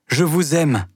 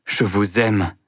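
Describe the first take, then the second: First: The second "je vous aime" bursts out, pleading; passionate outburst. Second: Said in the usual way. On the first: Acted. Mouret's love declaration repeated.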